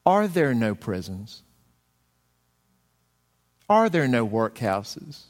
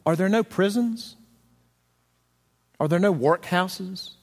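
First: Slow, stress on are, rising questions; ghost throwing the words back. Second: Higher, stress on no, brushing them off; a callous miser's rhetorical questions; Scrooge's dismissive retort. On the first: Ghost turns Scrooge's words against him, slow and pointed. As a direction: hand his own words back to him like a dagger. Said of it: "do you remember what the ghost said?". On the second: Preacher quoting Scrooge, higher and brushing off the poor. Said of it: "And Scrooge is relieved to hear that". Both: Retold or imitated.

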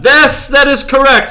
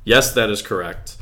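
First: High, loud announcer-style reading; hammed-up reading voice. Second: Said in the usual way. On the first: Shown as a demonstration. Host reading the beer description to his co-host in a big voice. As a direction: belt it out like a bombastic ad read. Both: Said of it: "That's the first sentence of the description".

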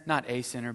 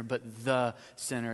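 First: "Not a sinner" with NOT hit and "a" passed over lightly. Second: Slow "but the sinner" with "the" drawn out and hit hard; stress on THE. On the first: Pastor contrasting Bible wordings for the congregation, stress on NOT. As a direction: set up the contrast by leaning on "Not". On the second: Pastor pointing out the Bible's wording to the congregation, slow stress on THE. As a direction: land on "the" to make it the one and only sinner. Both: Shown as a demonstration. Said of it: "Did you notice in my version".

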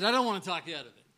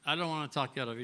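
First: First take rushed out quickly; quick retold line. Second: Said in the usual way. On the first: Owner hurrying to reassure the player, fast. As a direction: rattle it off fast, then repeat. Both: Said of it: "he said".

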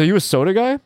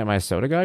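First: Higher, teasing boss voice; gym owner quote. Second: Said in the usual way. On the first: Retold or imitated. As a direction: lift it up and poke fun at him. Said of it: "He goes". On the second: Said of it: "And I'm like".

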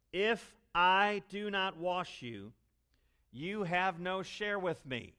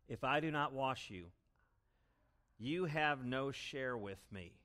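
First: Much higher and louder, slow; preaching the key line at full volume; emphatic proclamation. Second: Said in the usual way. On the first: Shown as a demonstration. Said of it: "That's the gospel message". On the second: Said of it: "And Jesus thus answers".

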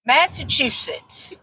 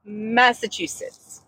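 First: Massachusetts said slowly with a "shits" ending. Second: Massachusetts said fast as one word with a "choo"; Massachusetts run together. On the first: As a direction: drag out Massachusetts. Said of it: "still sounds like shits". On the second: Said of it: "You say it all one word". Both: Shown as a demonstration.

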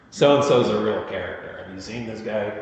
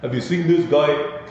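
First: Put-on a light Brooklyn accent, barely there; a mild Brooklyn street guy. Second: Put-on Brooklyn accent, pitched higher; a hammed-up Brooklyn "guy", rising at the end. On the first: Lecturer tries a faint Brooklyn accent on students. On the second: Lecturer retries the Brooklyn accent, then calls it terrible. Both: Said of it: "That's my Brooklyn accent".

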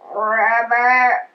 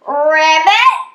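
First: Low rolled ribbit; low frog croak. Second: Loud, perky ribbit with a lift; pig's ribbit. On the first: Pig replies to the puzzled frogs, low croak. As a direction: croak the word deep in the throat. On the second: Little pig answers the frogs, loud perky ribbit. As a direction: chirp a confident frog call. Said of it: "the little pig answered". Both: A narrator's reading.

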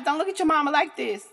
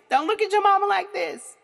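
First: Lightly voiced daughter, raised voice; a hint of a horrified daughter; shocked daughter pleading. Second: Higher and louder, horrified plea; louder shocked repeat. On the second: Retold or imitated. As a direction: push it up, more horrified. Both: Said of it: "my daughter might ... pop like".

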